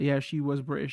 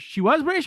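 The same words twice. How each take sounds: First: Said in the usual way. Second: Much higher, surprised echo; surprised question. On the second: Real, not acted. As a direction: question it with a high jump in pitch. Echoing the same fact as question.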